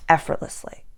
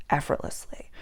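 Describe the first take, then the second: First: Said in the usual way. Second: Soft breathy whisper of the word; whispered effortlessly. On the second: Shown as a demonstration. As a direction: hush it out like a secret. Repeated, second whispered.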